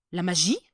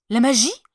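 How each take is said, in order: First: A first puzzled "La magie?"; mild wonder; curious question. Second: Magie much louder and higher; second "La magie?" bursting with excitement; thrilled, louder repeat; excited question. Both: Acted. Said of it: "demanda l'empereur, tout excité".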